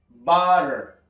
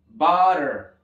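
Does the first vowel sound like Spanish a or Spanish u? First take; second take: a; a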